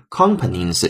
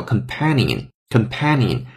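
First: Companions misread with stress on com, like company; wrong stress. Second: Companion stressed on pan, said slowly twice; slow model of companion with stress on the second syllable; correct stress. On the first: Teacher showing how learners misread it, wrong stress. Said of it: "可能会读成类似于companions这样的声音". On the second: Teacher modeling the correct stress for students, slow and clear. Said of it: "它要重音发生的变化，叫companion". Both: Shown as a demonstration.

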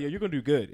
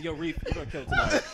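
First: Flat half-hearted compliment. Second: Bright, rising hype with a laugh; genuine hype compliment. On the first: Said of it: "He was like". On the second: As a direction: sell it like you mean it. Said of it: "when they acknowledge you". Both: Retold or imitated.

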